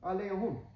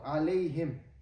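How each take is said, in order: First: The last syllable has a 'u' vowel, humm. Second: The last syllable has an 'i' vowel, himm. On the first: Some dialects say it this way. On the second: This is the common reading.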